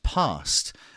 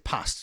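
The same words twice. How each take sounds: First: It is said in a southern English accent. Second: It is said in a northern English accent. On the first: "as a southerner... it would be laughing and past" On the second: "I'm from Newcastle, so I say past"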